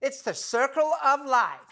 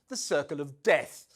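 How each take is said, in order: First: High, perky put-on chirp; chirpy duchess imitation. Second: Said in the usual way. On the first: Presenter mimics the duchess perking up after the lobster's death, chirpy. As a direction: perk right up in mocking imitation. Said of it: "the Duchess perked up and chirped".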